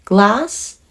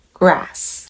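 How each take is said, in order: First: 'Glass' with a clean L after G, rising; L sound. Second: 'grass' with an English R after G, falling; R sound. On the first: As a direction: lift 'Glass' at the end, L distinct. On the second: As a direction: let 'grass' fall, R distinct. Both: Shown as a demonstration. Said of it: "その違いを皆さん聞き分けられるか".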